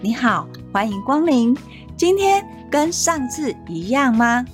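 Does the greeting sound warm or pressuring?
warm. It sounds warm and friendly.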